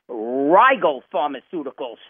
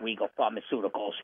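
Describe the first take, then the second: First: The name is said as Rigel, not regal. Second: The name sounds like the word regal. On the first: The speaker calls it right. "It's Rigel Pharmaceuticals" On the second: The speaker calls it wrong. "not only did I mispronounce the name, I mentioned to you as Regal Pharmaceuticals"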